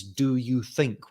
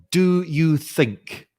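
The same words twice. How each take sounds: First: "Do you think?" repeated slowly and quietly; slow, quieter repeat. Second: "Do you think?" drawn out slowly, each word weighted, a little higher and louder; slow emphasis. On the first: Teacher repeating "Do you think?" to the students, slow and quiet. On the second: Teacher spotlighting "Do you think?" for the class, slow and emphatic. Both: Shown as a demonstration. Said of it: "include this little phrase".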